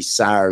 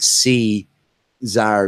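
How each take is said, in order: First: The word begins with a hissing s sound. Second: The word begins with a buzzing z sound. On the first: The speaker calls it right. "it's literally Sar, like S A R" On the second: The speaker calls it wrong. "instead of like C Zar, like you were saying"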